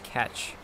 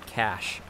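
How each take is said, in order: First: The word ends with a 'tch' sound. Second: The word ends with an 'sh' sound. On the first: The speaker calls it wrong. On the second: The speaker calls it right.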